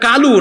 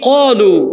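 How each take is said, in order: First: The first consonant is a light k sound. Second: The first consonant is a heavy, deep q sound. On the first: The speaker calls it wrong. "এটা কালু না" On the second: The speaker calls it right. "আরবিতে সাতটা অক্ষর মোটা হয়... এটা হলো কি কলু"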